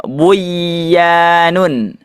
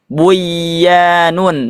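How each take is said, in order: First: The n is merged into the following y. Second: The n is merged into the following y.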